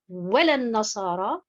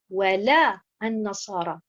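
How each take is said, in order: First: The stress is on the first syllable, wa. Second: The stress is on the second syllable, la. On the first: It becomes a confirmation rather than a negation. The speaker calls it wrong. "si je mets l'accentuation sur harakat al-waw" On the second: Neither will the Christians be satisfied; it is a negation. The speaker calls it right. "avec la bonne prononciation"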